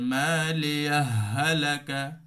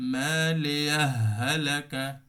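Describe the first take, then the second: No difference in how they are said.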